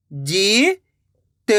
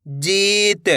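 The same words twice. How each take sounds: First: "जीत" split with a pause; long rising जी, pause, then त in "जीत"; letter by letter. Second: Said in the usual way. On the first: Shown as a demonstration. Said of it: "एक एक अक्षर का उच्चारण". ("जीत" को तोड़कर, जी... त) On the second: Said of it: "तो मिलके बन जाएगा".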